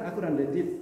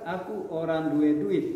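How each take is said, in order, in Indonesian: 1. Diucapkan dengan lancar, seperti penutur mahir. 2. Diucapkan dengan terbata-bata, seperti pemula. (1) "kalau udah udah lancar" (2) "Kalau masih baru-baru"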